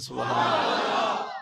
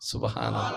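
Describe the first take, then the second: First: It is said louder. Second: It is said at normal volume.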